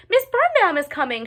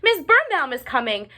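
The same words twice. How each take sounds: First: Pitched even higher, near a shriek; shouting louder. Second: Higher, louder alarm call; shouting. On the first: Ruby's second, more panicked warning call. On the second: Ruby warning the others the teacher is coming. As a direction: raise the alarm. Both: A narrator's reading. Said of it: "shouted Ruby".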